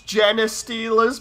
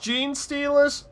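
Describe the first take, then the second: First: The first word has two syllables. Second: The first word has one syllable. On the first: The speaker calls it wrong. "They they were pronouncing it as genus stealers" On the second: The speaker calls it right. "look, it's gene stealers"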